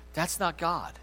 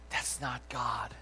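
First: Said in the usual way. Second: That's not God. whispered slowly, much softer. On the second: Real, not acted. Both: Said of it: "repeated line, plain then whispered".

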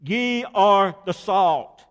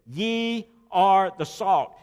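First: Loud, slow Ye are the salt, Ye hammered; stress on ye, proclaimed. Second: Slow, every word weighted in Ye are the salt; stress on ye. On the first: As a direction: cry it out as the point of the verse. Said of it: "is an emphatic pronoun". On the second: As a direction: lean on the word Ye as a read scripture. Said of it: "That word "ye" is an emphatic pronoun". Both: Shown as a demonstration.

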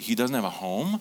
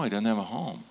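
First: "home" rising in a questioning tune; retold child's puzzled question, ending up on "home"; surprised question. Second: Softer statement, "home" settling without a questioning rise; quiet confirmation. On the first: Son asking dad about the homeless man, surprised question. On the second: Retold or imitated. Father explaining homelessness to his son, quiet confirmation. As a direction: gently confirm it, closing the tune on "home".

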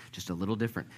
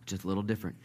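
Both takes have the same delivery.

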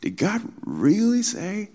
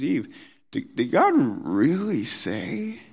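First: Really stretched and lifted high in a mocking rise; stress on really. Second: High, sneering question to Eve; mock God's word as if it's absurd. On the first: Shown as a demonstration. Preacher showing Satan's taunt, stress on really. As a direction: lean hard on really, high and sneering. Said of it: "the key word in that question is the word really". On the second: Satan taunting Eve about God's command, mocking high question. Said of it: "He's mocking it".

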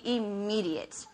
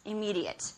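First: "immediate" slowed and stretched; emphatic. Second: Said in the usual way. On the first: Shown as a demonstration. Preacher on forgiving right away, emphatic slow "immediate". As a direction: draw out "immediate" for weight.

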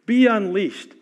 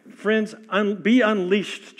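First: Louder call. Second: Slow call. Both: Real, not acted.

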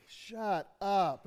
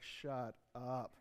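First: Delighted gasp of "Shut up." with the pitch falling on "up"; a teen who can't believe her new car; thrilled disbelief. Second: Low, much softer "Shut up."; a groaning owner who finds his car robbed; dejected disbelief. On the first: Teen daughter gets a brand new car, thrilled disbelief. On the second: Robbed car owner finds no tires, low deflated groan. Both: Retold or imitated. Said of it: "two different stories where they have the same words".

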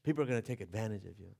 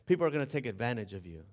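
First: Father's warning, quieter. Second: Father's warning. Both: Retold or imitated. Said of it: "life lesson he tried to teach me".

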